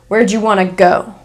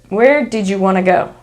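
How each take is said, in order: First: 'Did you' becomes 'jew' and 'want to' becomes 'wanna'. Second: Every sound of each word is pronounced.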